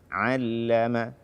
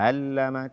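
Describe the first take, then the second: First: The ain sound is clear and distinct. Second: The ain sound is weak and unclear. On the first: The speaker calls it right. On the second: The speaker calls it wrong.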